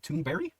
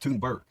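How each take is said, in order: First: The name ends with an 'ee' sound. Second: The name ends with a hard 'g' sound. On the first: This copies how the name sounds in its owner's accent. "Should I pronounce it that way" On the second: This is the plain way of saying it. "or just"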